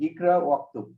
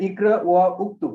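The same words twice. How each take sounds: First: ইকরা ওয়াক্তুব with no উ, ওয়া running straight into ক্তুব; correct pronunciation. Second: ইকরা ওয়া উক্তুব with the উ of উক্তুব said as a full separate sound; wrong pronunciation. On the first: Teacher gives students the correct form, ইকরা ওয়াক্তুব with the উ dropped. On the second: Teacher shows students the mistake, ইকরা ওয়া উক্তুব with a separate উ. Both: Shown as a demonstration. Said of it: "এরকম না কিন্তু".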